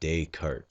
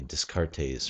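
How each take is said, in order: First: The name sounds like 'day' plus 'cart'. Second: The name does not sound like 'day' plus 'cart'. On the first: The speaker calls it right. "spell the word day, spell the word cart, and read it back to back" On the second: The speaker calls it wrong. "the tendency is to say Descartes or something funny like that"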